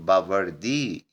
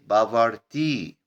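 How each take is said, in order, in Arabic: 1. الحرف الصامت في الوسط هو صوت d ناعم. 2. الحرف الصامت في الوسط هو صوت t واضح.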